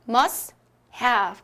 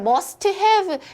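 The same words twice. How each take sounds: First: The t at the end of must is dropped. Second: The t at the end of must is pronounced. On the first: The speaker calls it right. "T를 한번 빼줄게요" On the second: The speaker calls it wrong. "이렇게 소리 내지 않습니다"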